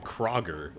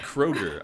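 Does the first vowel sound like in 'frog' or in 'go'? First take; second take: frog; go. First: The first vowel sounds like in frog. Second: The first vowel sounds like in go. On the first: The speaker calls it wrong. "I said Kroger, like like Frogger" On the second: The speaker calls it right. "supposed to be Kroger"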